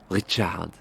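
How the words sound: The name is said in a French accent.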